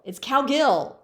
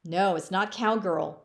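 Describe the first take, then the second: First: "cowgill" louder, hitting gill; emphatic correction. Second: Said in the usual way. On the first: Shown as a demonstration. Counselor correcting students on her name, emphatic "cowgill". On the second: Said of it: "But it's not cowgirl".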